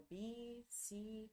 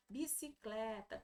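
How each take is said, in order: First: BICICLETA split slowly into its syllables, with pauses. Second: Said in the usual way. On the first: Shown as a demonstration. Teacher counting syllables in bicicleta, slow and separated. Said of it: "Quantas sílabas tem a bicicleta?". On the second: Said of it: "eles vão escrever as sílabas, olha".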